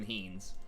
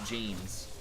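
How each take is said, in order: First: The word begins with an H sound. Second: The word begins with an English J sound. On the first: The speaker calls it wrong. "It's not even heens" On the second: The speaker calls it right. "That's actually how you say it"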